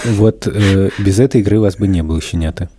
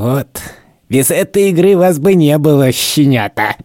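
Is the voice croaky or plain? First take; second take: croaky; plain. First: It is said in a croaky, groaning voice. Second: It is said in a plain, ordinary voice. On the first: The speaker calls it right. "я такой кряхтя говорил" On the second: The speaker calls it wrong. "не так я говорил, конечно"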